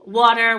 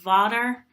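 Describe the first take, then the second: First: The word begins with a w sound. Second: The word begins with a v sound.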